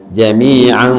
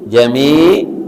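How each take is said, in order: First: The word ends with a vowel and n. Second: The word ends abruptly on a consonant. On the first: The reciter continues without stopping. "kalau disambung" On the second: The reciter stops after this word. "kalau berhenti"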